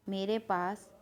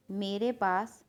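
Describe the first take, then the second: No difference in how they are said.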